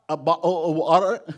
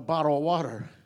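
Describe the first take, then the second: First: It is said in a British accent. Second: It is said in the speaker's own accent.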